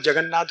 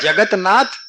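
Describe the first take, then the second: First: The t sound merges into a double n. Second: The t sound is kept before nath. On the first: "एक ही में कहो जगन्नाथ हो जाएगा"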